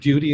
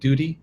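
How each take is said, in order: First: The vowel has a 'y' glide, like 'dyoo'. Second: The vowel has no 'y' glide, like 'doo'. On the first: The speaker calls it right. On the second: The speaker calls it wrong.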